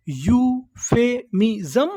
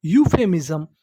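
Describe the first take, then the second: First: "euphemism" very slowly in separate beats, rising at the end; broken into syllables. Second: Said in the usual way. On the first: Shown as a demonstration. Teacher repeating the word for learners, syllable by syllable. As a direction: stretch "euphemism" out piece by piece. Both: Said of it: "टुकड़ों में तोड़-तोड़ के पढ़ना है".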